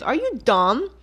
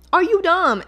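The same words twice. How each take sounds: First: Said in the usual way. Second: Are you dumb? higher and louder, stress on you; louder exasperated repeat. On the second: Real, not acted. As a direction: hit "you" hard, pitch up in disbelief. Repeated insult, louder second take.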